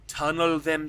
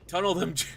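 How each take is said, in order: First: It is said in a put-on character voice. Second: It is said in the speaker's normal voice.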